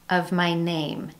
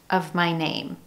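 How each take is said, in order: Both takes have the same delivery.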